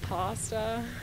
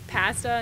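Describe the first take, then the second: First: It is said with an American pronunciation. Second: It is said with a Canadian pronunciation. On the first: This is how others around the speaker say it. "instead of" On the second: This is the speaker's own habitual way of saying it. "I say"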